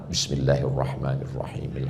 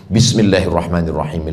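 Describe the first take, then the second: First: It is recited slowly. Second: It is recited fast.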